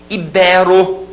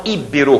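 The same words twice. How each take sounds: First: "Ibero" as i-BÉ-ro; middle-stressed "Ibero"; stress on penultimate. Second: "Ibero" as Í-be-ro, first syllable stressed; front-stressed "Ibero"; wrong stress. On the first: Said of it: "Olha as paroxítonas". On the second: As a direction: hit the I of "Ibero" and let bero fall away. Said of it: "como a gente escuta por aí". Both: Shown as a demonstration.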